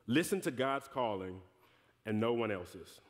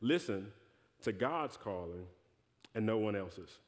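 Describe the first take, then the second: First: It is said at a normal speed. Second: It is said slowly and deliberately.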